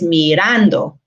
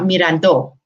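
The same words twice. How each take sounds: First: The stress is on the second syllable. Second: The stress is on a later syllable. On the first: The speaker calls it right. "the original is mirando" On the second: The speaker calls it wrong. "not mirando"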